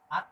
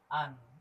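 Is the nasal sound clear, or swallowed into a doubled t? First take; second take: doubled t; clear. First: The n is dropped into a doubled t. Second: The n sound is pronounced fully and clearly. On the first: "berarti timbul tasdid" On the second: "Kalau kamu milih jalan bawah, jadi jelas"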